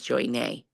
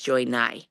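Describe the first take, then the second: First: The surname is said to rhyme with 'day'. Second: The surname is said to rhyme with 'die'. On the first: The speaker calls it wrong. "I always thought your name was" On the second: The speaker calls it right. "That's how you say it"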